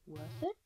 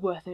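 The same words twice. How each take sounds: First: The phrase is said with a marked inflection. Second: The phrase is said flat, without inflection. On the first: The speaker calls it right. "You're missing the inflection" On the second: The speaker calls it wrong. "It's not called Worth It"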